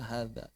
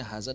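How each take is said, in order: First: "hadza" with a soft voiced th; dh sound. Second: "haza" with a plain buzzing z; wrong reading "haza", z for dh; z sound. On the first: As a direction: correct "hadza", tongue between the teeth. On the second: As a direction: say "haza" with tongue behind the teeth. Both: Shown as a demonstration. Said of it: "Beda artinya haza dengan hadza".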